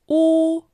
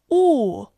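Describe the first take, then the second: First: The pitch stays high and level. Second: The pitch falls sharply from high.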